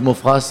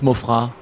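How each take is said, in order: First: The final S is pronounced at the end. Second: The final S is silent at the end. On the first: "Il y a un S, hein. Donc, des fois, les gens disent Mofra" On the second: "Ça se prononce Mofra"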